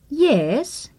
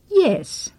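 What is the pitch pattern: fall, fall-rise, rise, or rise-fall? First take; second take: fall-rise; fall. First: The pitch falls and then rises. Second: The pitch falls.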